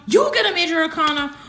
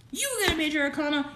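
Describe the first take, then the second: First: Fast, higher and louder; the second louder call; louder excited. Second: Fast, higher, rising excitement; first call of the card; excited. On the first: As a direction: shout the news again, more thrilled. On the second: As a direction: blurt it out fast and thrilled. Excited repeat of card news. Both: Real, not acted.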